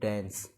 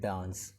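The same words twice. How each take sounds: First: It is said with an American accent. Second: It is said with a British accent. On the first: "USA वाले कहते हैं" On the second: "UK वाले वो क्या कहते हैं"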